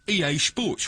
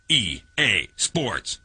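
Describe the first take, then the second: First: It is said in an English accent. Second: It is said in a Canadian accent. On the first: "the English version" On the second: "The Canadian version"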